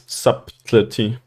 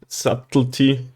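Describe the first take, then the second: First: The b sound is clearly pronounced. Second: The b sound is left out entirely. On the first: "Why isn't it subtlety?" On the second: "a silent B"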